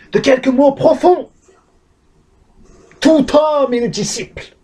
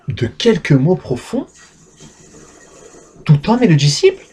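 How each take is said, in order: First: It is declaimed like a protest leader's slogan. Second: It is said with genuine astonishment.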